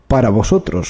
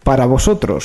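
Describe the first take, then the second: First: The voice is pushed deep and low. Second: The voice is at its normal pitch. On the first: "Voz grave, por favor" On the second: "Tengo una voz de mierda, no me gusta"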